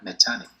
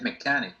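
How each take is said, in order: First: The middle consonant is a ch sound. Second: The middle consonant is a k sound. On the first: The speaker calls it wrong. "no es mechanic" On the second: The speaker calls it right. "es mechanic"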